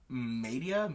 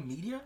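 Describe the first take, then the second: First: "Media" said MAY-dee-uh; tentative pronunciation. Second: "Media" said MEE-dee-uh; tentative pronunciation. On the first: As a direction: try "Media" with a long A, questioning. Trying a magic word's pronunciation. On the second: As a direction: try "Media" with a long E, higher and questioning. Second try at the pronunciation. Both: Shown as a demonstration.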